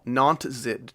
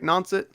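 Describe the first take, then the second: First: The T sound in the middle is clear. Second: The T sound in the middle is dropped. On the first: "does not. I don't know how much I'm supposed to emphasize that first T" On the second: "that rolls off the tongue pretty well"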